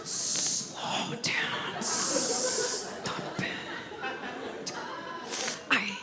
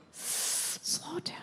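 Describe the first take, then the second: First: Unvoiced whispered "Slow down, stop it"; imitating mom's whisper. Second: Unvoiced whispered "Slow down"; imitating mom's whisper. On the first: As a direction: whisper it like a nervous mother. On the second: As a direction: hiss it from the passenger seat. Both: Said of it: "she whispers everything about my driving".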